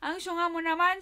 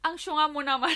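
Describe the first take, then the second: First: Louder, higher laughing jab; laughing tease. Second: Louder, laughing tease; mock her sister fondly; teasing laugh. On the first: Retold or imitated. Teasing her sister, laughing louder. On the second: Teasing her sister about the earring, laughing. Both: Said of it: "tinawanan ko siya".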